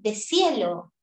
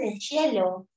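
First: The word has a neutral Spanish pronunciation. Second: The word has an Argentine-style pronunciation. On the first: The speaker calls it right. "se dice de cielo" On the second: The speaker calls it wrong. "los que se creen argentino, mata al argentino que vive en ti. No se dice de cielo"

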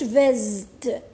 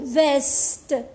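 First: The s is pronounced as a buzzing z. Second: The s is pronounced as a hissing s. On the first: The speaker calls it wrong. "ما نقولوش فازت" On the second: The speaker calls it right. "نقولو فاست"

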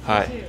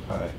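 First: The greeting sounds lively and excited. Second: The greeting sounds flat and unexcited.

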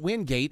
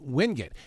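First: The name is said the outsider way. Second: The name is said the local way. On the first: This is how visitors say it. The speaker calls it wrong. "people come down here and say it's Wingate, and I'm going, it's not Wingate" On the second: This is how locals say it. The speaker calls it right. "it's Wingate"

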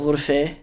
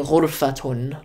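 First: Levantine form, ending in an 'e' sound. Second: Standard Arabic form, ending in '-atun'. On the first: "You'd say like ghurfe" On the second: "like we do in Fusha"

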